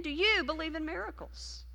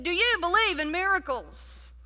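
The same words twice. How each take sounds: First: Asked again at an even level; a preacher dad's question asked once more; repeated question. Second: Higher and louder preacher's question; dad's rhetorical question hammered for emphasis; emphatic third ask. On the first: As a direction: let the repeat hang, no push. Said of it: "he said it again". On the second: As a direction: press it home the third time. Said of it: "for emphasis". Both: Retold or imitated.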